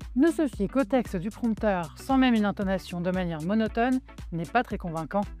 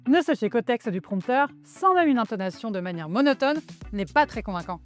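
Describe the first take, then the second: First: It is read flatly, without trying to convince. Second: It is said warmly, addressing the listeners directly.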